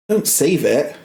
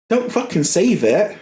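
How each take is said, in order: First: Said in the usual way. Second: Don't fucking save it pitched up with stress on fucking; higher, insistent repeat; emphatic, higher. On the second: Real, not acted. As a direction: punch "fucking" in exasperation.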